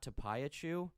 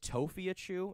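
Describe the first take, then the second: First: The name begins with the sounds 'Tapa'. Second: The name begins with the sounds 'Tofi'. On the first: The speaker calls it wrong. "and not Tapayachu" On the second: The speaker calls it right. "apparently it's Tofiachu"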